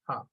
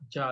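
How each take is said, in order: First: It begins with a breathy H sound. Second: It begins with an English J sound. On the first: The speaker calls it right. "it's ha" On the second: The speaker calls it wrong. "so it's not ja"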